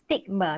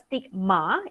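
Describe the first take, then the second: First: It is pronounced the English way. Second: It is pronounced the Malay way. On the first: The speaker calls it right. "it's stigma. it's in English" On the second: The speaker calls it wrong. "It's not stigma, Maybe stigma is in Bahasa Malaysia"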